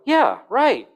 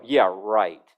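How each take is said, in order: First: High, loud, amazed "Yeah, right"; incredulous yeah right. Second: Low, dry, dismissive "Yeah, right". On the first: Preacher showing tone to the congregation, high incredulous. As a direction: jump way up in disbelief. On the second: Preacher showing tone to the congregation, low dismissive. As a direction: drop it low and flat like you don't buy it. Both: Shown as a demonstration. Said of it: "Just by my tone of voice".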